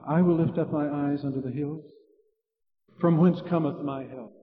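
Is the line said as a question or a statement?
question. It is said as a question after a break.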